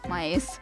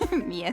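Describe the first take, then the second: First: The vowel is read like English "my". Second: The vowel is read as a Finnish "ie" glide. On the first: The speaker calls it wrong. "I tried to read it like it would be English first" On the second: The speaker calls it right. "when it's actually like uh, Finnish"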